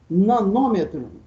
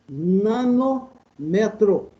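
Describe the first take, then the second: First: The stress falls on the syllable nô. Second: The stress falls on the syllable me. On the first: The speaker calls it right. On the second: The speaker calls it wrong.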